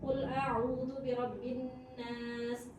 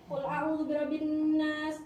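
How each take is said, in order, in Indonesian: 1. Surat ini dibacakan dengan tempo cepat. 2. Surat ini dibacakan sangat cepat, semuanya dalam satu tarikan napas. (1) "Itu mode tilawah cepat" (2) "Ada lagi yang lebih cepat, terawih satu surat satu kali nafas"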